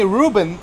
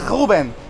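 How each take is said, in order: First: It is said with an English accent. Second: It is said with a Portuguese accent.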